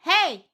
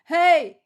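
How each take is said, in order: First: A loud, belted, calling hey. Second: A plain, ordinary hey without calling. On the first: "le geste de l'appel, avec le belting" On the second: "au lieu de me faire un hey"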